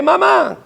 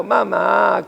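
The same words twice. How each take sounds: First: Put-on sudden high scared cry of a child; a small child startled, calling for mother; higher frightened call, imitating a child. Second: Put-on a child begging mother, gently; mild mock pleading call. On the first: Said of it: "Para cuando se asuste". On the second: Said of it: "Para suplicando".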